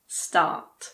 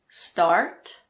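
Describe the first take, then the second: First: The R sound is silent. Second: The R sound is clearly pronounced. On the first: "in British English" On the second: "In American English"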